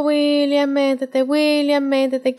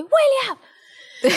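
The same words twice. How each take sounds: First: Said in the usual way. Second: Sudden high sharp yell of his name; yelling at son. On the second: Retold or imitated. Mother yelling at toddler to get into the bath, sharp yell. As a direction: snap at the child to get in the bath. Mom finally yells at son.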